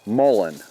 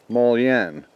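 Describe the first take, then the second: First: The word ends with a plain 'un' sound. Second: The word ends with a 'yun' sound. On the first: The speaker calls it right. "the way everybody says says it is Mullen" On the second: The speaker calls it wrong. "I said the proper way to pronounce this is Mullion"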